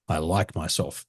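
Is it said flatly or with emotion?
flatly. It is said flatly, without emotion.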